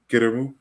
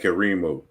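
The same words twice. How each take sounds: First: The vowels are said short and clipped. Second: The vowels are drawn out and lengthened. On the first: "so you hear this Kirimu" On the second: "I elongate, you know, all the all the vowels"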